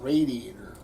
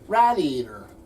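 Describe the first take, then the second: First: Standard accent, first part not like 'rat'. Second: South Jersey accent, first part sounds like 'rat'. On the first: "not radiator" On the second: "we say radiator"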